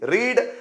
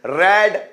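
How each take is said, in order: First: The word rhymes with 'need'. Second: The word rhymes with 'bed'. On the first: It is the present form. "Pronunciation में थोड़ा सा difference है, लेकिन spelling same होगी" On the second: It is the past form. "Pronunciation में थोड़ा सा difference है"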